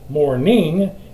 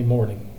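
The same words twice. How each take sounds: First: The stress is on the last syllable. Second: The stress is on the first syllable. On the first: The speaker calls it right. "we got got to accent that last syllable" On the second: The speaker calls it wrong. "Well, no"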